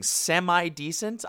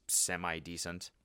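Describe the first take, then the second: First: High, drawn-out incredulous question; mock-offended disbelief. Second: Low, soft, slow shrug of a verdict; lukewarm dismissal. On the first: Real, not acted. Throwing a commenter's insult back, incredulous. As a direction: stretch it out, as if insulted. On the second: Retold or imitated. Imitating a commenter's faint praise, underwhelmed. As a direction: let it drop quietly, unimpressed.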